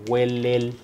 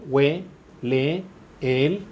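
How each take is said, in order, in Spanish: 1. Las dos vocales que se encuentran se unen en una sola sílaba. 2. Cada sílaba se pronuncia por separado, con las vocales separadas. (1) "esta la puedo fusionar en una sola sílaba" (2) "Si yo digo lisa y llanamente en sílabas"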